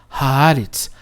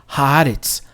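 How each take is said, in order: The two takes are said the same way.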